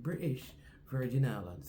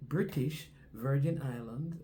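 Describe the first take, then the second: First: The T in British is dropped. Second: The T in British is clearly pronounced. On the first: The speaker calls it right. "Just pronounce it without the T" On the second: The speaker calls it wrong. "she don't say British Virgin Islands"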